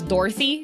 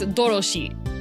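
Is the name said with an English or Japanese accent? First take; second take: English; Japanese. First: It is said with an English accent. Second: It is said with a Japanese accent.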